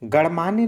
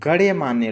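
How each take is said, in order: First: It is said without a 'ya' after 'gan'. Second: It is said with a 'ya' after 'gan'. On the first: The speaker calls it wrong. "गणमान्य नहीं" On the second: The speaker calls it right. "बल्कि गण्यमान्य"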